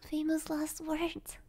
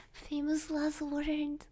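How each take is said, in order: Both takes have the same delivery.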